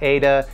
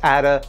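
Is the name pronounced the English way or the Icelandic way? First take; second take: English; Icelandic. First: The name is pronounced the English way. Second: The name is pronounced the Icelandic way. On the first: The speaker calls it wrong. "not Ada" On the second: The speaker calls it right. "it's Ada, They're Icelandic. They pronounce it Ada"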